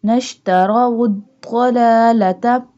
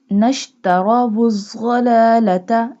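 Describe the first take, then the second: First: "الضلالة" with a heavy d-like dad for ض; correct dad sound. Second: "الضلالة" with a buzzing z-like zwad for ض; mistaken zwad sound. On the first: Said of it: "zwad, it's dad". ("الضلالة" chanted louder with a full dad) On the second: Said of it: "This one is not zwad, it's dad". ("الضلالة" chanted with z in place of dad) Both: Shown as a demonstration.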